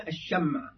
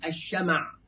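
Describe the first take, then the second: First: "الشمع" as ash-sham', vowelless mim; sukun on the mim. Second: "الشمع" as ash-shama', open mim; fatha on the mim. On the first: Teacher showing how people say it, "الشمع" with sukun on mim. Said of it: "ينطقون الشمع بتسكين الميم". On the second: Teacher showing the eloquent form, "الشمع" with fatha on mim. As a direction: say "الشمع" with a short a after the mim. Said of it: "أما بفتح الشين والميم ففصيح". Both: Shown as a demonstration.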